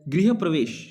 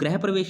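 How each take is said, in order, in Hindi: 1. पहला शब्द 'grih' बोला जाता है। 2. पहला शब्द 'grah' बोला जाता है। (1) "इसका उच्चारण क्या करेंगे? गृह" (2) "ग्रह प्रवेश नहीं बोलना"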